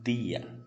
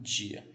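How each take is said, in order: First: The d is plain with tongue on teeth. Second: The d has a hissing 'j'-like sound. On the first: This is the Spanish way. "Em espanhol sempre terá esse som... Língua no dente" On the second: This is the Brazilian Portuguese way. "Esse chiado"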